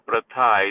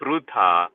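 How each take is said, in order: First: The first syllable has an 'a' vowel. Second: The first syllable has a 'ru' sound. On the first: The speaker calls it wrong. "it's not a pratha" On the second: The speaker calls it right. "it's a prutha"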